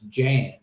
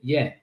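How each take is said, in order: First: The name begins with a J sound. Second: The name begins with a Y sound. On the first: This is how the speaker's own language reads the name. "In my language, that's Jan" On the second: This is how the name is said where its owner comes from. "from where he's from, from they pronounce it Yen"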